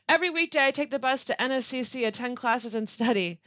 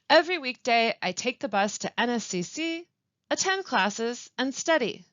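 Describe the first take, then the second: First: The phrases run together without pauses. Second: There are pauses between the phrases. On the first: The speaker calls it wrong. "If I had said it all together" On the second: The speaker calls it right. "listen to me read the following example"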